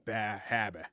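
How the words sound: It is said in a Boston accent, dropping the r sounds. The speaker calls it wrong. "he cannot say it correctly. Ba habba"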